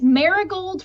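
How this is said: The name is pronounced with English sounds. It suits Western listeners. "for like our Western palate"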